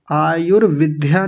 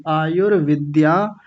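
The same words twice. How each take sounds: First: आयुर्विद्या as aayur-vidh-ya; aspirated dy. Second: आयुर्विद्या as aayur-vid-dyaa; unaspirated dy. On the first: Teacher showing the mistake, आयुर्विद्या with dhy. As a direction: add an h to the d in आयुर्विद्या. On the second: Teacher correcting the class, आयुर्विद्या as aayur-vid-dyaa. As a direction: keep the d in आयुर्विद्या free of h. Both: Shown as a demonstration. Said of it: "आयुर्विद्या नहीं बोलेंगे".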